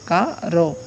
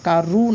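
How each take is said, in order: First: The final vowel is an 'o' sound. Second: The final vowel is an 'u' sound. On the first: The speaker calls it right. "এভাবে আসবে" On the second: The speaker calls it wrong. "কারু না"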